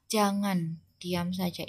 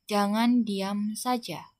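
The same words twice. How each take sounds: First: Said in the usual way. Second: "Jangan diam saja" read slowly, each word set apart; quoted line read out. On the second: Shown as a demonstration. Teacher reading "Jangan diam saja" slowly as a quoted example. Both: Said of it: "kemudian tanda kutip".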